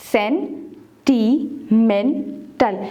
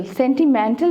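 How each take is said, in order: First: sentimental very slowly in four separate beats; syllable by syllable. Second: Said in the usual way. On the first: Shown as a demonstration. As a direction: pause after each syllable of sentimental. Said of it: "separate the syllables". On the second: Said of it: "four syllable word है".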